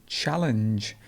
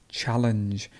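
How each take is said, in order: No difference in how they are said.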